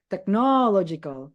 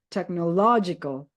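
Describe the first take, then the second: First: The stress is on the second syllable. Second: The stress is on the third syllable. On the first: The speaker calls it wrong. "kalian nggak bisa technological, nggak bisa" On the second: The speaker calls it right. "You have to emphasize law. ... the third syllable"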